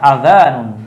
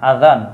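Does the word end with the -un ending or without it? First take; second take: with ending; without ending. First: The word is said with its full -un ending. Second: The word is cut short, dropping the -un ending.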